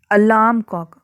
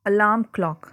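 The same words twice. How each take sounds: First: अलार्म क्लॉक with the opening "a" made clear; sounding out. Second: Said in the usual way. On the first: Shown as a demonstration. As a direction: say अलार्म क्लॉक leaning on the first vowel. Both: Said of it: "अ से एक की sound आ रही है".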